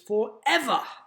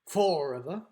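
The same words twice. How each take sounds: First: The stress is on the second syllable. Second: The stress is not on the second syllable. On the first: The speaker calls it right. "ev is the syllable that's stressed in forever" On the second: The speaker calls it wrong. "It's not forever"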